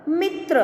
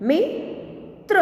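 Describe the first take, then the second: First: Said in the usual way. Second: Slow reading. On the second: Shown as a demonstration. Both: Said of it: "के उदाहरण हम देखें".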